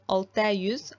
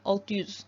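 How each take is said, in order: First: The final vowel of altı is kept. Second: The final vowel of altı is dropped. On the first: The speaker calls it wrong. "I'm not saying" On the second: The speaker calls it right. "A is dropped and E is attached"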